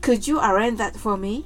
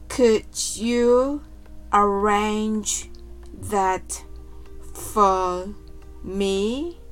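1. この文は速く話されています。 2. この文はゆっくり話されています。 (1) "次に早く言ってみましょう。" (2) "はじめはゆっくりです。"

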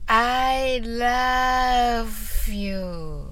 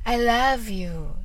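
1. このフレーズはゆっくり言います。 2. このフレーズは速く言います。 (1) "ゆっくり言ってみましょう。" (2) "早く言ってみましょう。"

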